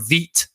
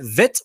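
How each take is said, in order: First: The vowel sounds long, as in beet. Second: The vowel sounds short, as in bit. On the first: "I kind of like saying Veet better" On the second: "Is it Vit"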